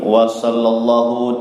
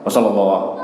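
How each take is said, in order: First: The phrase is read slowly and deliberately. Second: The phrase is rattled off very fast. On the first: The reading leaves time to follow along. "Saya bacanya pelan-pelan" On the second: Listeners must concentrate hard to keep up. "kayak kereta api Pak, kayak spur, cepat sekali"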